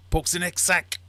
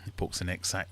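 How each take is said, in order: First: High, loud acted command; soldier's order. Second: Said in the usual way. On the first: German ordering the next sack poked, high and loud. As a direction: call out the order in a raised pitch.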